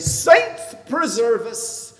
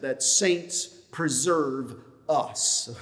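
First: It is said in an Irish accent. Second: It is said in a plain accent. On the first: "When I'm in an Irish mood, I say" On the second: "In case you didn't understand my Irish accent"

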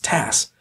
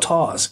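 First: The name ends with a hissing s sound. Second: The name ends with a buzzing z sound. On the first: The speaker calls it right. "It's Tass. Short for Tasselhoff" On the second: The speaker calls it wrong. "It's not Taz"

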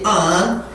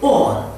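First: It is said in an American English accent. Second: It is said in a British English accent. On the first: "American people say on" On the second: "while British people say on"

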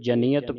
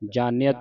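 First: The first vowel is short. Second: The first vowel is long. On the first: The speaker calls it right. "ਇਹ ਜਨੀਅਤ ਪਾਠ ਉਚਾਰਨ ਕਰਨਾ ਹੈ" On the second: The speaker calls it wrong. "ਜਾਨੀਅਤ ਨਹੀਂ ਪੜ੍ਹਨਾ"

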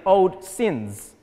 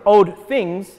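First: The second word begins with an s sound. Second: The second word begins with a th sound. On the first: "Spanish speakers have difficulty with saying the" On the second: "instead of old things"

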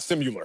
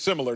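First: It is said with an extra 'y' sound, 'simi-liar'. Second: It is said with three syllables, no 'y' sound. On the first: The speaker calls it wrong. "not similar. there's no Y in it" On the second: The speaker calls it right. "the word is similar"

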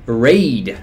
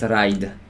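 First: The word is said with English pronunciation. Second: The word is said with a strongly Polish pronunciation. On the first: The speaker calls it right. "To jest poprawna wymowa po angielsku" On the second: The speaker calls it wrong. "Raid to takie mocno spolszczone. Nawet niepoprawne"

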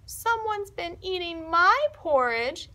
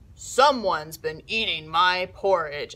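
First: It is said in a little voice. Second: It is said in a big, gruff voice. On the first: "in his little voice" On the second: "in a big, gruff voice"

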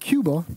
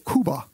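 First: The name is pronounced the English way. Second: The name is pronounced the Spanish way. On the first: This is how English speakers say the name. "We call it Cuba" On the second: This is how the island's own people say the name. "They say Cuba"

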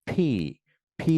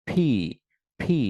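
Both takes have the same delivery.

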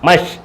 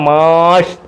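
First: The vowel is kept short. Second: The vowel is drawn out long. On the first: The speaker calls it right. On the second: The speaker calls it wrong.

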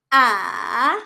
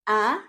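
First: The pitch goes down, then up. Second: The pitch rises like a question. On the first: "para siyang letter V. Bababa muna and then tataas" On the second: "para ka lang nag-ask ng question ... pataas yung tone natin"

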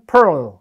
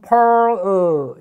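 First: The word is said quickly and compactly. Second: The word is said slowly and drawn out. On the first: "빨리 하면 pearl" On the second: "천천히 하면 pearl 이렇게 돼요"

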